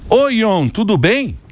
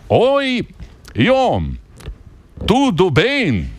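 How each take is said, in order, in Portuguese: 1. O cumprimento é dito em um ritmo normal e rápido. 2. O cumprimento é dito devagar e com cuidado.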